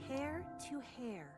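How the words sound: It sounds careful and meticulous.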